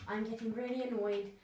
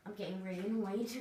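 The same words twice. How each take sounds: First: Giggling through a fake complaint; playful put-on grumble; laughing mock annoyance. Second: Said in the usual way. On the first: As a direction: laugh while pretending to be cross.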